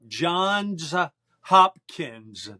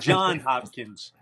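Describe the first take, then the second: First: The first name ends with an s sound. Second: The first name ends without an s sound. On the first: The speaker calls it right. "It's Johns Hopkins" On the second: The speaker calls it wrong. "That's not John Hopkins"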